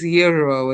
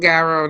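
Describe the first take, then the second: First: The word begins with no G sound. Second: The word begins with a pronounced G sound. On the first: The speaker calls it right. "that G is not, it's silent" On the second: The speaker calls it wrong. "that's not really how it's supposed to be pronounced"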